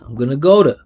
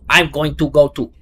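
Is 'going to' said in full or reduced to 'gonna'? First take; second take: reduced; full. First: Going to is reduced to gonna with a schwa. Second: Going to is said in full, each sound pronounced. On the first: The speaker calls it right. "it should be schwa here. Gonna" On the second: The speaker calls it wrong. "if you pronounce this"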